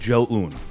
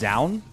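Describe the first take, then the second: First: The name begins with a 'j' sound. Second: The name begins with a 'z' sound. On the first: This is the technically correct pronunciation. "Technically, the correct pronunciation is Jo-un" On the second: This is how the casters commonly say it. "every other caster kind of decided it was"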